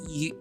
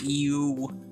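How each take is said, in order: First: The vowel in the word is clipped short. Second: The vowel in the word is drawn out long. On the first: This is how British people say it. "They say, like, you... Like a much shorter" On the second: This is how the speaker's own group says it. "the way that we say, like, you"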